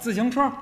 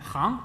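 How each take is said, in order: First: The character is read as xíng. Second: The character is read as háng. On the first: It is part of the word for bicycle. "还有这个自行车" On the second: It is the word used in bank. "有的时候他就念行"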